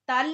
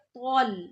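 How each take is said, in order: First: The syllable is pronounced thin and light. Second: The syllable is pronounced heavy and thick. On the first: The speaker calls it wrong. "नहीं" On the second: The speaker calls it right. "मोटा, तल नहीं बल्कि तौल"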